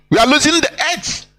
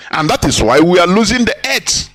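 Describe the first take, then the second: First: Losing pushed up high, quicker, emphatic; stress on losing. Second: Said in the usual way. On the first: Real, not acted. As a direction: hit losing hard and high.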